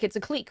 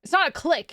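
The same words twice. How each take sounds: First: "clique" said as "cleek", long ee; own pronunciation. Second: "clique" said as "click", short i; wrong pronunciation. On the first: Streamer checking a word with chat, "clique" as "cleek". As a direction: say "clique" to rhyme with "seek". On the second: Streamer checking a word with chat, "clique" as "click". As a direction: say "clique" to rhyme with "pick". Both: Shown as a demonstration. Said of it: "is that not how you pronounce it".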